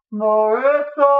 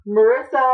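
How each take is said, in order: First: Slow, stretched, loud high wail; drawn-out panicked shout. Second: Loud, urgent high call; panicked shout. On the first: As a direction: drag her name out desperately. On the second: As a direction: shout her name in panic. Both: Acted. Frantic calls at door.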